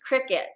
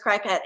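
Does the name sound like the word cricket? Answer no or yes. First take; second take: yes; no. First: The name sounds like the word cricket. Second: The name does not sound like cricket. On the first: The speaker calls it right. "they changed their logo to have a crick a little cricket in it" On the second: The speaker calls it wrong. "but I thought it was Cricut"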